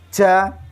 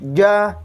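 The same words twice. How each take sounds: First: Breath is pushed out strongly with the sound. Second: Breath is held back with the sound. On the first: The speaker calls it wrong. "Bukan ja, ja, ja" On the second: The speaker calls it right. "tetap diupayakan ditahan"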